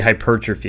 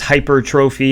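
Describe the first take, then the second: First: It sounds like one word, not hyper plus trophy. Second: It sounds like "hyper" and "trophy" joined. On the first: The speaker calls it right. "it's actually hypertrophy" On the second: The speaker calls it wrong. "it's very often mispronounced as hypertrophy"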